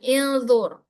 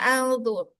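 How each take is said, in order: First: The word begins with an i vowel. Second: The word begins with an a vowel. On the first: "bukan ilzur" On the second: "bukan juga alzur"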